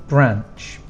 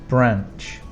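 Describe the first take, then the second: Both takes have the same delivery.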